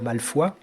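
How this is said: The name is said with a French pronunciation. The speaker calls it right. "il faut prononcer à la française"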